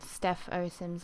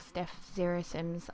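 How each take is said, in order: First: The character after Steph is read as 'oh'. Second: The character after Steph is read as 'zero'. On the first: "I don't know exactly how to pronounce it" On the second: "I don't know exactly how to pronounce it"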